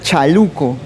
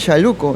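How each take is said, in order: First: The word begins with a sharp 'ch' sound. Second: The word begins with a soft 'sh' sound. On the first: This is how someone from Lima says it. "dirá chaluco" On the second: This is how Amazonian speakers say it. "alguien que venga de Lima no va a decir chaluco"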